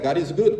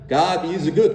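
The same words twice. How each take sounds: First: The phrase is said quickly, run together. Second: The phrase is said at a slower pace.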